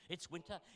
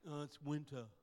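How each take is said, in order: First: It is said in an upbeat, delighted tone. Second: It is said in a gloomy, complaining tone.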